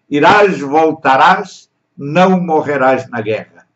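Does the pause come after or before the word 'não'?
before. The pause comes before não, not after it. You will not die in the war. "Isso foi o que ele entendeu"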